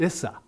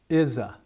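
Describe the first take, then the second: First: The middle consonant is a hissing s sound. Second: The middle consonant is a buzzing z sound. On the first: The speaker calls it wrong. "there is no Z sound. So it will come out issa" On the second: The speaker calls it right. "make sure that they're going to hear the Z sound on is a"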